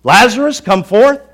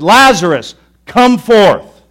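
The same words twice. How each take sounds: First: Loud, sing-song mock of the command; a scoffer parroting the call; a skeptic in the crowd loudly mocking the call; mocking shout. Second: Full-voiced, commanding shout; a booming command to wake the dead. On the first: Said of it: "Some probably thought, "He's losing it". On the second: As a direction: call the dead man out of the tomb. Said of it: "the idea is he shouted".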